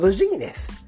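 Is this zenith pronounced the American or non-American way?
American. Zenith is said the American way.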